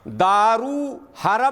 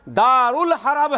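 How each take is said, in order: First: It is said 'daru harb' with no 'ul' sound. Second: It is said 'darul harb' with an 'ul' sound. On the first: The speaker calls it wrong. "नहीं है" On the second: The speaker calls it right. "है"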